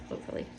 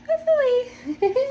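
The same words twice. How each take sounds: First: Said in the usual way. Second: Very high, drawn-out singsong; playful high-pitched squeal of hope; squeaky hopeful. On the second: Real, not acted. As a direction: say it in a comically high little voice, slowly. Jokey repeat of hopefully, then laughs.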